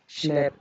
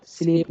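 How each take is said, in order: First: स्लैप with an open vowel; short A sound. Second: स्लीप with a long ee; long E sound. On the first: Teacher showing short vowels, स्लैप with open a. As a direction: say स्लैप with a as in cat. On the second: Teacher rejecting a misreading, स्लीप with long ee. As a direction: stretch स्लीप to an ee vowel. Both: Shown as a demonstration. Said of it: "स्लीप नहीं होगा".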